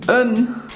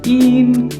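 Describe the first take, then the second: First: The vowel is a short 'uh' sound. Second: The vowel is a long 'ee' sound. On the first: The speaker calls it right. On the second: The speaker calls it wrong. "Not een"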